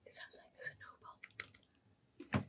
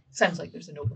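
First: Breathy hushed whisper, barely voiced. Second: Said in the usual way. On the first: Player whispering a warning to the party. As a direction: whisper it so the enemy can't hear. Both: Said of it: "She whispers".

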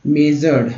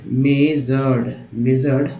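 First: Said in the usual way. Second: "measured" slow, in two long syllables; broken-down pronunciation. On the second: Shown as a demonstration. Teacher repeating a word for learners, slow split "measured". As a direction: stretch "measured" as may-zard. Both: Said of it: "ऐसे तोड़ के पढ़ना है".

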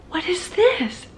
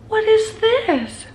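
First: Puzzled, higher question; surprised. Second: Slow, high, gasping disbelief; stunned. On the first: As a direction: ask it half amused, curious. Reacting to surprise in kitchen. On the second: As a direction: drag it out, amazed. Gasp then repeats question. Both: Real, not acted.

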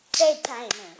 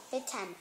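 First: "Bedtimer" louder, each syllable made clear; sounded out for counting. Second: Said in the usual way. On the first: Shown as a demonstration. Child teacher repeating a trickier word, louder and clearer syllables. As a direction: firmly spell out the beats of "Bedtimer". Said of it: "Let's see it". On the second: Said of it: "This is the word".

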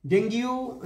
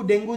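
First: "ডেঙ্গু" said as deng-giu, with a glide before u; spelling-based pronunciation. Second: Said in the usual way. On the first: Shown as a demonstration. ("ডেঙ্গু"-কে বানান ধরে "ডেঙ্গিউ" উচ্চারণ) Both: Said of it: "ডেঙ্গু যেটাকে বলছি".

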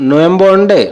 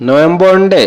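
No difference in how they are said.

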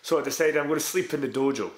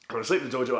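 First: Said in the usual way. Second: Leans on the word "sleep" a little; slight push on "sleep", the rest said normally; stress on sleep. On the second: Real, not acted. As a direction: put weight on "sleep" as the punchline.

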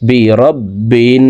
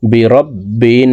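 First: রব্বিন with the নুন hummed through the nose for three seconds; slow ghunnah demo; nasal ghunnah. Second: রব্বিন with the ব doubled and held, slow; slow shadda demo; doubled consonant. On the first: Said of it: "তিন second পরিমাণ গুন্নাহ করে পড়ব". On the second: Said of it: "তাসদিদওয়ালা হরফ দুইবার উচ্চারণ". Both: Shown as a demonstration.

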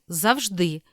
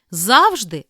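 First: Завжди as zav-ZHDY; last-syllable stress. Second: Завжди as ZAV-zhdy; first-syllable stress. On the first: Teacher giving the other variant, final stress on завжди. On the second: Teacher reading double-stress words, first-syllable stress on Завжди. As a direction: punch ZAV at the start of Завжди. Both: Shown as a demonstration. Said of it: "слова із подвійним наголосом".

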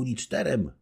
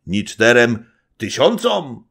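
First: Higher, playful counting up; young wife teasing. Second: Slower, louder mimicking echo; mocking old man. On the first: Acted. Young wife bargaining with her husband, higher and playful. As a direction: tease him lightly. Baśka voiced by reader. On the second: Old nobleman mocking the young wife's boast, loud. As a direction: mimic her words to mock them. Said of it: "rzekł przedrzeźniając Zagłoba".

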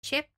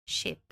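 First: "Chip" with a sharp ch, like the start of "cheese"; chip demo. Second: "ship" with a soft sh and no t sound; ship demo. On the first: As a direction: say "Chip" with the affricate tch. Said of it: "aqui é chip". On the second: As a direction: say "ship" smooth, just sh. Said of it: "aqui é ship". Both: Shown as a demonstration.

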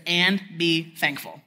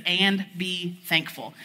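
First: "And be thankful" read slowly, each word weighed; a deliberate scripture quote. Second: "And be thankful" drawn out, very slow and firm; an unhurried repeated verse; slow deliberate reading. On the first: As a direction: lay the verse down slowly and firmly. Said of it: "it says". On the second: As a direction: stretch every word of the command. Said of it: "It says". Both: Shown as a demonstration.

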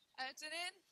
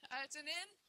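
Both takes have the same delivery.

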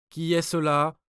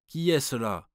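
First: Higher, much louder, frightened repeat; trembling challenge. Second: Sharp louder challenge, pitched up; guard's cry. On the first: Swiss guard repeats his challenge, trembling and loud. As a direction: shout it again, scared now. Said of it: "répéta le Suisse d'une voix tremblante". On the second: Swiss guard challenges the approaching light, shouting. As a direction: call out into the fog. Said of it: "cria le Suisse". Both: A narrator's reading.

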